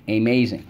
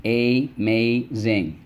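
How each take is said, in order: First: Said in the usual way. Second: "amazing" stretched slowly as a-maz-ing; syllable by syllable. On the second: Shown as a demonstration. Teacher reviewing words with the class, slowly syllable by syllable. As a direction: tap "amazing" out slowly, one syllable per finger. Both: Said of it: "Let's go".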